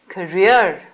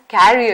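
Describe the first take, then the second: First: The word is said like 'career'. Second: The word is said like 'carrier'. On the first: The speaker calls it right. "is pronounced as career" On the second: The speaker calls it wrong. "not as carrier"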